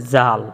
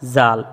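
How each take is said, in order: Both takes have the same delivery.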